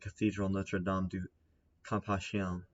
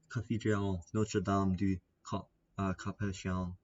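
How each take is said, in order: First: It is said in the speaker's plain accent. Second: It is said in a put-on French accent. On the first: "I haven't been putting on my French accent this entire time" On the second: "putting on my French accent"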